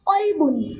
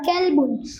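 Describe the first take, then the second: First: The first sound is a deep, heavy q. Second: The first sound is a light, thin k. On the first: It means heart. The speaker calls it right. "क़ाफ़ पुर के साथ" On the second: It means dog. The speaker calls it wrong. "बारीक काफ के साथ अदा कर दिया जाए"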